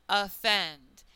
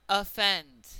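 The two takes are said the same way.

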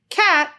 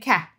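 First: The word is said clearly in full. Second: The word is clipped and unclear. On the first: The speaker calls it right. "instead of saying cat" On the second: The speaker calls it wrong. "I'm saying cat"

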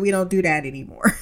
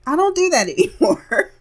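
First: It is said in a plain voice. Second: It is said as an impression of Hartley.

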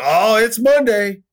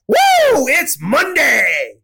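First: It is said in a glum, dreary tone. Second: It is said in an excited, energetic tone.

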